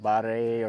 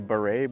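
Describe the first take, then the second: First: It is said the way local people pronounce it. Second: It is said as an English reader would read it. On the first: This is how local people say it. "they say it a little bit different" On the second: This is how the speaker reads it. "I look at it and I say beret"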